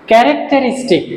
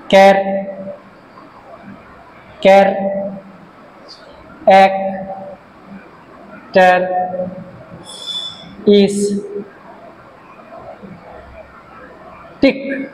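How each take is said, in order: First: Said in the usual way. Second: car, এক, ter, is, tic with long pauses; syllable by syllable. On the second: Shown as a demonstration. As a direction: dictate characteristic very slowly, one syllable at a time. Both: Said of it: "পাঁচটা syllable আছে".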